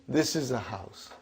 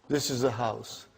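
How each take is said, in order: No difference in how they are said.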